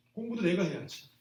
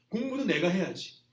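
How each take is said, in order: First: 내가에 힘을 주어 또렷하게 짚기; 내가 를 눌러 강조하며 말하기; stress on 내가. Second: 공부도에 힘을 주어 높고 크게; 공부도 를 세게 짚어 말하기; stress on 공부도. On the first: (내가에 강세) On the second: (공부도에 강세) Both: Shown as a demonstration.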